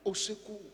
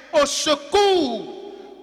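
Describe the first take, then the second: First: Much softer, hushed plea for help; whisper-like prayer. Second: Drawn-out slow plea for help. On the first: Preacher praying quietly for his listeners. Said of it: "Apprenons à crier à Dieu". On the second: Preacher praying before preaching, drawn out slowly. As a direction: plead slowly to God. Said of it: "Seigneur, je ne sais pas prêcher". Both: Shown as a demonstration.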